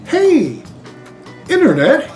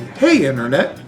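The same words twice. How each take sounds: First: The pause comes after the word Hey. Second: The pause comes after the word Internet.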